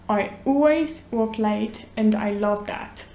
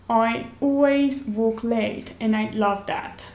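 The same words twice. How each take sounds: Both takes have the same delivery.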